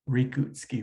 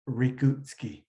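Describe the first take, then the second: First: The R is pronounced like an English R. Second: The same.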